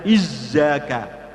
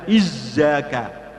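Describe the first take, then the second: First: The middle consonant sounds like a z. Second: The middle consonant sounds like a z.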